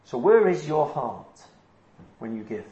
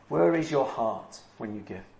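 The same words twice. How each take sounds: First: "where" stressed, slow, the question falling; slow emphatic question. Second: Quieter, lower, reflective echo, "where" leading; soft repeat. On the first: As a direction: ask it slowly, leaning on "where". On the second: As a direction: repeat it softly to let it sink in. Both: Shown as a demonstration.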